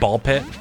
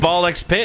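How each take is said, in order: First: The letter X is left out entirely. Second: The letter X is spoken between the words. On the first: "Is it just Ball Pit?" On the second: "by pronouncing the X"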